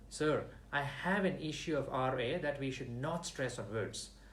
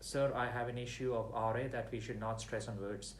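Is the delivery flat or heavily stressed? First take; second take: heavily stressed; flat. First: Many words are strongly stressed and lively. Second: The words are delivered flat with little stress. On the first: The speaker calls it wrong. "this is with a lot of stressing" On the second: The speaker calls it right. "this voice was much flatter than the earlier tone"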